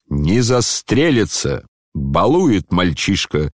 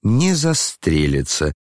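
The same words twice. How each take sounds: First: Slow, slightly raised indignant declaration; the general scoffing with aplomb; mild indignant cry; indignant shout. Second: Gloating mutter. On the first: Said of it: "с негодованием и с апломбом ... прокричал генерал". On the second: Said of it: "с злорадством пробормотало несколько голосов". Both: A narrator's reading.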